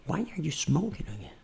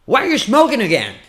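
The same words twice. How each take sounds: First: Very soft, private question; intimate voice. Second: High, connected question; full-voice challenge. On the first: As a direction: ask it under your breath. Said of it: "voz íntima". (voz íntima, pergunta baixinha) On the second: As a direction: confront them out loud in one burst. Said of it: "por que que você tá fumando?". (cobrança em voz aguda e solta) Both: Shown as a demonstration.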